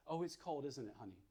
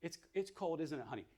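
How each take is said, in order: First: Put-on soft, hushed comfort to a baby; tender quiet validation; soothing mother. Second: Calm, tender reassurance at normal volume; soothing validating mom; gentle mother. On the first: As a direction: lull the baby gently. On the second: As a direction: comfort the baby kindly. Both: Shown as a demonstration. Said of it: "validates the baby's stress".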